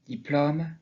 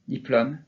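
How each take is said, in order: First: Diplôme in Gascon, with open O; "diplôme" Gascon style, ô fully open. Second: Diplôme with an open O; southern French open O. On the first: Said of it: "Et en gascon, de la même façon". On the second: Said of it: "Même dans le français parlé dans le Sud". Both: Shown as a demonstration.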